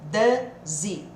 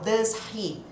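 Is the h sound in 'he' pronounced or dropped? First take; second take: dropped; pronounced. First: The h drops and the words merge. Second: The h in he is clearly pronounced. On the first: The speaker calls it right. "O H some" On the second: The speaker calls it wrong. "não vamos falar assim na vida real"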